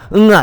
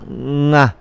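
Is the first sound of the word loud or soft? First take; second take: loud; soft. First: The whole word is said loudly and strongly. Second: Only the final vowel is loud and stressed. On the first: The speaker calls it wrong. "반드시 이걸 또 소리 큰 소리 내셔가지고 그러신 분들 응아 응아 이렇게 하시는 분들이 계신데 그런 건 아니고요" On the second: The speaker calls it right. "응에서 출발했지만 아만 큰 소리 나는 겁니다"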